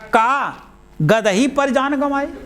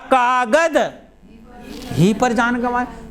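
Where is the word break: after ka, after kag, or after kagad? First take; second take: after ka; after kagad. First: The break comes after ka. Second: The break comes after kagad.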